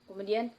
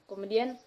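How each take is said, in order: No difference in how they are said.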